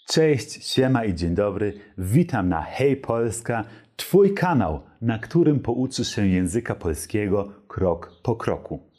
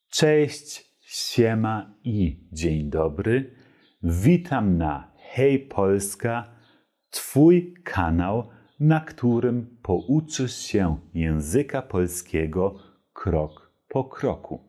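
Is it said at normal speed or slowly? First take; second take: normal speed; slowly. First: It is said at normal speed. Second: It is said slowly.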